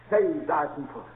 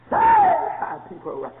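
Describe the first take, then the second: First: Said in the usual way. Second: Very high, slow preached cry. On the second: Acted. Preacher cries out the meaning of Hosanna, high and slow. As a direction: stretch it out like a plea. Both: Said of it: "look up the word Hosanna".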